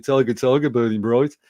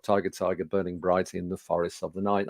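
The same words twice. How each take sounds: First: Thick Birmingham accent, firm and louder on the verse; Brummie accent. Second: Said in the usual way. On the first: Shown as a demonstration. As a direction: recite it in a broad Brummie accent. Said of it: "with my best Brummie accent". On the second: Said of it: "which really I should have said".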